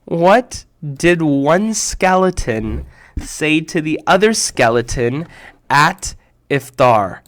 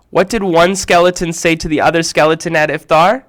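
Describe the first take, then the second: First: Very slow, spelled-out retelling; "What did one skeleton say" dragged out word by word; slow repeat. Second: Said in the usual way. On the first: Shown as a demonstration.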